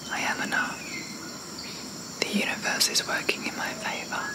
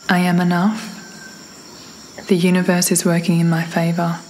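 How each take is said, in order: First: It is whispered without a full voice. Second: It is spoken aloud in a normal voice.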